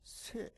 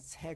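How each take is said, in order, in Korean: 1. 이 모음은 쇠처럼 입술을 둥글게 오므려서 발음합니다. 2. 이 모음은 입술을 평평하게 펴서 발음합니다. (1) "오므려서 얘기하는" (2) "새 그러지 않고"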